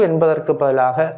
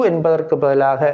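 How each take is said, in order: No difference in how they are said.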